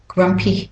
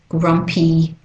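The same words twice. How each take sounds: First: The final vowel is clipped shorter. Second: The final vowel is drawn out longer. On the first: "for the other two accents... It's a bit shorter" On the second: "for Australian English, we tend to make it a bit longer"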